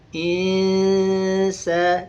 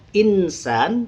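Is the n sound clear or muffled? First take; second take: muffled; clear. First: The n sound is faint, half there and half gone. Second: The n sound is pronounced fully and clearly. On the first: The speaker calls it right. "nunnya seperti terdengar ada dan seperti hilang" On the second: The speaker calls it wrong. "Bukan dibaca"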